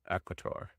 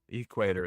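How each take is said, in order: First: The first vowel is a short e sound. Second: The first vowel is a long e sound. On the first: "I feel like it's a it's a short e" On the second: "Equator is what we'd say here in the United States"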